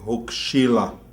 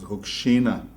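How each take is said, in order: First: The word is said with an L sound. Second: The word is said with an N sound.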